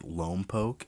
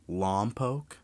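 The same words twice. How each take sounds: First: Lompoc said LOHM-poke, first vowel as in "home"; wrong pronunciation. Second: Lompoc said LAHM-poke, first vowel as in "father"; correct pronunciation. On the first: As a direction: Lompoc with a long "oh" in the first syllable. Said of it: "I apologize for that because I'm an idiot". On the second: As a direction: Lompoc with an open "ah" in the first syllable. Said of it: "I pronounced it Lompoc". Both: Shown as a demonstration.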